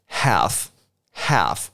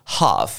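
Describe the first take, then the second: First: Half with the flat American a, slowly; half said slow with a wide American vowel. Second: Half with the long British ah; half with an open British ah. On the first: Teacher models the American half, slow and exaggerated. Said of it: "美国人念法". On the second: Teacher contrasts the British half with the American one. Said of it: "英国念法". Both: Shown as a demonstration.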